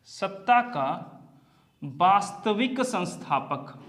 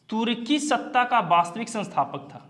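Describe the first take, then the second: First: सत्ता का वास्तविक संस्थापक, slowed right down, each word spaced; slow it down so students can note it; slow emphatic repeat. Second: Said in the usual way. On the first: Shown as a demonstration. Teacher repeats the key term slowly for the class, spaced and deliberate.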